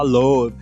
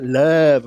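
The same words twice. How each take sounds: First: The vowel is not the central 'uh' sound. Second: The vowel is the central 'uh' sound. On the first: The speaker calls it wrong. "o pessoal que fala love" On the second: The speaker calls it right. "que é love"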